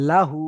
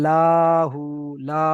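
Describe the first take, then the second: First: লাহু with short লা, long হু; short first vowel. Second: লাহু with লা drawn out long; wrongly stretched vowel. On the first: Teacher modelling careful recitation, short লা in লাহু. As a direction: keep লা brief and hold হু. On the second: Teacher showing students the mistake, লা dragged out. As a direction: overstretch the লা of লাহু. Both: Shown as a demonstration. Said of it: "লাটা কি আমি টান করে ফেলছি".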